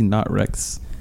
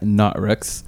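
First: It is said plainly, without extra emphasis. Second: It is said with strong, forceful emphasis.

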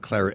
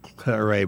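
First: The word is said the English way. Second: The word is said in a non-English way. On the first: The speaker calls it right. "Claret is the way the English pronounce it" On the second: The speaker calls it wrong. "not Claret"

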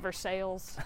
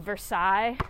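First: The ending sounds like English 'sails' with an L. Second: The ending sounds like French 'sigh' without an L. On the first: "But it's pronounced Versailles" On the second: "a town called Versailles"

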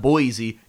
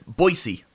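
First: The word gets the common, widespread pronunciation. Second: The word gets the local, in-town pronunciation. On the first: The speaker calls it wrong. "It's not Boise" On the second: The speaker calls it right. "it's Boise"

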